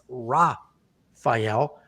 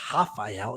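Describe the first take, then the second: First: The name is said without Brazilian Portuguese pronunciation. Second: The name is said with Brazilian Portuguese pronunciation. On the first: The speaker calls it right. "it's Rafael" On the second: The speaker calls it wrong. "I always do the Brazilian pronunciation of these names, but he's not Brazilian, so it's not Rafael"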